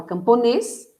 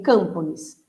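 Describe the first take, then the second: First: Camponês with the final nês stressed; stress on last syllable. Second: Camponês stressed wrongly on the first syllable, CÂM-po-nes; slow camponês with the weight on cam; misplaced stress. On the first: Teacher giving the correct form of camponês, stressed on nês. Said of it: "Você fala camponês". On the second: Teacher showing how not to say camponês, stressed on cam. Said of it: "você não fala". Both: Shown as a demonstration.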